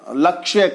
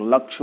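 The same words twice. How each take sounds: First: The final consonant cluster is pronounced in full. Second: The final consonant cluster is cut short. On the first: The speaker calls it right. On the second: The speaker calls it wrong.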